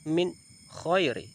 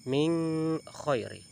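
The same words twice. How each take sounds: First: The n of min is pronounced clearly. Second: The n of min is blurred and nasalized. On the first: The speaker calls it right. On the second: The speaker calls it wrong.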